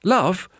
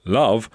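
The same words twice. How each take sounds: First: Put-on "Love?" high-pitched, as a child's query; short, high questioning LOVE; puzzled question. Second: "Love" stated assuredly, near the usual pitch; understated, knowing "Love". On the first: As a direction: echo "Love?" as if unsure. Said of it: "asked Dominic". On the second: Acted. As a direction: say LOVE as a sure answer. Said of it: "with a knowing look".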